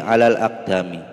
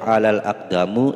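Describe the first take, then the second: First: The last word ends in an i vowel. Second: The last word ends in a u vowel. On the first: The speaker calls it right. "kenapa dibaca mi? Karena ada huruf jar ala" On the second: The speaker calls it wrong. "tidak boleh ... salah"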